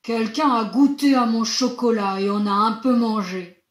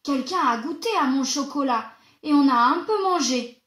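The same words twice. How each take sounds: First: It is said in a big, deep voice. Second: It is said in a medium-pitched voice.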